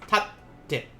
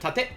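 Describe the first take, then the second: First: The middle t is held before release. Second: The middle t is short, not held. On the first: The speaker calls it right. "it's tatte" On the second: The speaker calls it wrong. "Instead of tate"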